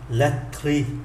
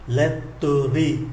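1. Từ này được đọc với hai âm tiết. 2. Từ này được đọc với ba âm tiết. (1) "còn 2" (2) "3 âm tiết"

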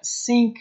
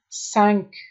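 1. مصوت مثل 'ee' است، مثل 'sink'. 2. مصوت مثل 'eh' است، مثل 'senk'. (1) "سینک تلفظ نکنین" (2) "سنک 5 میگه"

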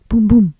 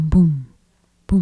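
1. Les battements sont prononcés rapidement, l'un après l'autre. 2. Les battements sont prononcés à un rythme lent et régulier. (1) "mon cœur bat très vite maintenant" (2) "Je peux aussi entendre mon cœur battre"

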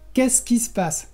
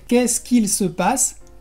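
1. Se dice rápido, con qu'il reducido a qui. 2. Cada palabra se dice completa, con un qu'il claro. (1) "cuando hablamos rápido decimos simplemente" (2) "que sería la forma normal, bueno, la forma correcta"

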